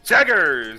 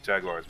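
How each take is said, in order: First: The word is said in an odd, funny way. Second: The word is said in the standard way. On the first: This is how the announcer says it. "the way they pronounce it is it's pretty funny" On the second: This is what the word really is. "we know it's like Jaguars"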